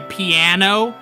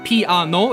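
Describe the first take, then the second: First: It is said with smooth, American-style flowing syllables. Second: It is said in three separate, even syllables. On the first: "as I guess Americans say" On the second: "in Korean it's very syllabic. It's very uh piano. It's it's broken up into those three pieces"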